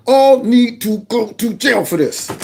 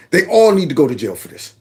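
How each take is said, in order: First: "All need to go to jail" high, each word drawn out; slow emphatic repeat. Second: Said in the usual way. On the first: Real, not acted. Host condemning officials, "All need to go to jail" high and slowly stressed.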